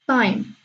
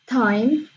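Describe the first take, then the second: First: The t is said with no puff of air. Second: The t is said with a strong puff of air. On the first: "without air puff or unaspirated" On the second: "pronounced with a lot of air pop or aspirated"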